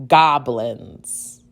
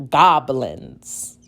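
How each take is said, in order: Both takes have the same delivery.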